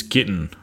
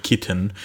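First: "kitten" with the middle T dropped out; dropped consonant. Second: "kitten" with its middle T pronounced; consonant kept. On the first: Australian host showing lazy speech, T dropped from "kitten". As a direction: leave the T out of "kitten". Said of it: "we just drop all". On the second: Australian host showing the full word, T kept in "kitten". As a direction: say "kitten" with the T clearly there. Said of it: "So instead of kitten". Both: Shown as a demonstration.

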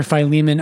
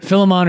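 First: Philemon said fy-LEE-mun; long i, then stressed LEE in Philemon; fy-LEE-mun pronunciation. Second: Philemon said FIL-uh-mon; short i at the start of Philemon, ending in "mon"; FIL-uh-mon pronunciation. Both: Shown as a demonstration. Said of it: "I don't know how you pronounce it".

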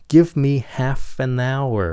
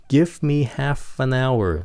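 No difference in how they are said.

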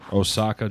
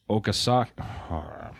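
First: Said in the usual way. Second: "Okasaka" with an extra syllable, said slowly; "Okasaka" sounded out haltingly, then broken off; misread place name. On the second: Real, not acted. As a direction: stumble slowly through "Okasaka", adding "ka" after the O. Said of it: "for I can't read".

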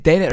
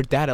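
First: "data" said DAY-tuh; long-a pronunciation. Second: "data" said DAT-uh; short-a pronunciation. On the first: Host recalling a repeated question, "data" as DAY-tuh. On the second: Host recalling a repeated question, "data" as DAT-uh. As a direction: say "data" with an open "ah"-like first vowel. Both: Retold or imitated. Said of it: "We did data or data".

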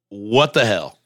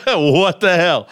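First: Said in the usual way. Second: Slow, laughing what the hell; amused disbelief. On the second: Real, not acted. Streamer repeats himself, laughing slowly in disbelief at the rant. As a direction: drag it out, laughing at how wild it is.

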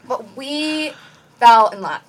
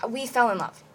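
First: Slow build to a punched "fell"; emphatic insistence. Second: Said in the usual way. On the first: Real, not acted. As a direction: insist on "fell in love" after a dramatic pause. Insists on it after "sounds crazy.

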